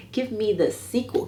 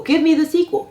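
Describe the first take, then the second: First: Said in the usual way. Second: Excited high plea. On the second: Real, not acted. Repeated demand for sequel.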